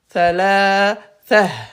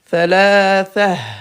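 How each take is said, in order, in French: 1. Le mot finit par le son -ha soufflé. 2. Le mot finit par le son -ha soufflé.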